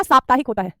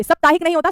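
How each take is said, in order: First: साप्ताहिक with long "saap" at the start; correct pronunciation. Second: साप्ताहिक with short "sap" at the start; wrong pronunciation. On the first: (सही उच्चारण, साप्ताहिक में लंबा सा) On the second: (गलत उच्चारण, साप्ताहिक को सप्ताहिक बोलें) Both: Shown as a demonstration.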